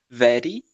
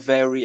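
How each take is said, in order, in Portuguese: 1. O R é leve, como o R brasileiro. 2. O R é bem puxado para trás, no estilo americano. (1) "eles tendem a falar um R parecido com o nosso R" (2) "eles falam very ... Olha o R puxado"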